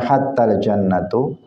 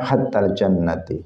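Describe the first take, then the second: First: The word jannat ends with the vowel u. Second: The word jannat ends with the vowel i. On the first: "boleh dibaca dengan tiga harokat" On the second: "boleh dibaca dengan tiga harokat"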